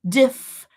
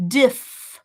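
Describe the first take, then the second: The two takes are said the same way.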